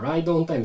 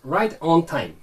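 First: The r and t sounds are soft and blurred. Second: The r and t sounds are crisp and clear. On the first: The speaker calls it wrong. "じゃなくて" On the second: The speaker calls it right. "r とかt のちょっとぼやけがちなところとかもしっかりと発音して"

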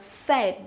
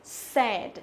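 No difference in how they are said.

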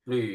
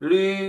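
First: It is said with the third Mandarin tone. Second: It is said with the first Mandarin tone. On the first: "ที่สามหลี" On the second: "เสียงที่หนึ่งลี"

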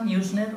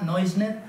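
First: The name is pronounced the English way. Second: The name is pronounced the German way. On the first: "algunos lo pronuncian a la inglesa" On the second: "otros a la alemana"

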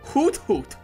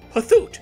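First: The t and h are said separately. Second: The t and h merge into a th sound.

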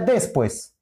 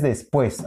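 First: The stress is on the first syllable. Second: The stress is on the second syllable. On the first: The speaker calls it wrong. "si no diría después" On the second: The speaker calls it right. "dices después. Aquí lleva la mayor intensidad de sonido"

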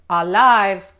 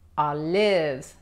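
First: The vowel is long, as in 'wide'. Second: The vowel is short, as in 'give'. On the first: The speaker calls it wrong. "no vas a pedir olives" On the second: The speaker calls it right. "la I es corta, no larga"

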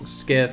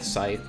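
First: The word begins with an sk sound. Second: The word begins with a plain s sound. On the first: The speaker calls it wrong. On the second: The speaker calls it right.

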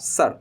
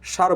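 First: The word begins with a hissing s sound. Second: The word begins with a hushing sh sound. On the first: The speaker calls it right. "এই জন্য আমরা এখানে বলবো স্যার" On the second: The speaker calls it wrong. "সার বলবো না"

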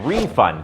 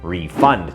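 First: The stress is on the first syllable. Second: The stress is on the second syllable. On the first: It names money that is given back. "ถ้าเน้นพยางค์แรก" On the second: It names the act of giving money back. "เน้นพยางค์ที่สองครับ"

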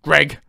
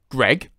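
First: The name is hidden inside a cough. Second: The name is said in a normal voice.

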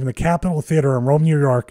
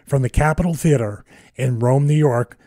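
First: The phrase is spoken at a normal, quick pace. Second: The phrase is spoken very slowly and deliberately. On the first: The speaker calls it wrong. "I'm mispronouncing everything" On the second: The speaker calls it right. "I'll say it really slowly"

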